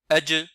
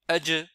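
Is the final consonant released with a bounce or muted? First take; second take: bounce; bounce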